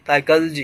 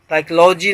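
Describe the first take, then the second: First: "साइकोलॉजी" said sai-kul-jee, vowels reduced; correct pronunciation demo. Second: "साइकोलॉजी" said saik-LAW-jee with a full o; wrong pronunciation demo. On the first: Teacher correcting learners, "साइकोलॉजी" as sai-kuh-l-jee. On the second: Teacher showing learners what to avoid, "साइकोलॉजी" as saik-law-jee. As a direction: say "साइकोलॉजी" stressing an open "law". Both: Shown as a demonstration. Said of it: "साइकोलॉजी नहीं".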